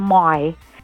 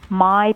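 First: The vowel is drawn out a little longer. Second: The vowel is said plainly and short.

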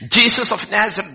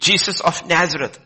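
First: The voice trembles as if afraid. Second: The voice is steady and unafraid. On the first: The speaker is afraid. The speaker calls it right. "They would have probably trembled" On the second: The speaker is not afraid. The speaker calls it wrong. "that was not the tone. Okay, my tone was wrong"

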